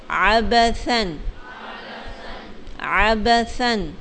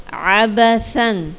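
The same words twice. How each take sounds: First: عبثن slow, ث with tongue on the teeth; correct tha sound. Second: عبثن with ث said like س, slow; wrong s sound. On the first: Teacher correcting pupil, slow careful ث in عبثن. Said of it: "ثا کی آواز آئے گی". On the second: Teacher demonstrates mispronouncing عبثن with س. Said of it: "سین کی آواز آئی ہے". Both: Shown as a demonstration.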